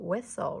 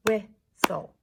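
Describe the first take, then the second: First: Said in the usual way. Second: "Whistle" in two loud, separate beats, whis-tle; clapped-out syllables. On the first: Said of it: "Let's clap out". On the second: Shown as a demonstration. Teacher clapping out whistle with pupils, "Whistle" loudly syllable by syllable. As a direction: punch each syllable of "Whistle" with a gap between. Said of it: "Let's clap out whistle".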